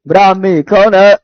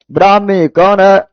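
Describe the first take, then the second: No difference in how they are said.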